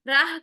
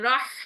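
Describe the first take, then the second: First: The h is a plain light h sound. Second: The h is a strong breathy throat sound. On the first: The speaker calls it wrong. "राह करेंगे तो गोल हा बन जाएगी, गलत है" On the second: The speaker calls it right. "ये करना है ठंडी सांस के साथ"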